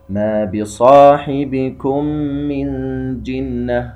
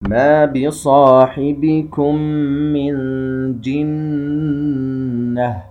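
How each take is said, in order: First: The doubled nasal is cut short, not held. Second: The doubled nasal is held for two beats. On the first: The speaker calls it wrong. "خطأ، لم يستوفي الغنة التي هي بقدر حركتين" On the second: The speaker calls it right. "يجب أن تظهر فيه الغنة المستطالة التي هي بقدر حركتين"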